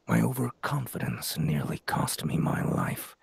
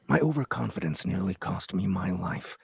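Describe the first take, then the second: First: The line is spoken at a slower pace. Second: The line is spoken at a faster, clipped pace. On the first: The speaker calls it wrong. "maybe just a little bit faster" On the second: The speaker calls it right. "I could do the the paragraph again with that direction"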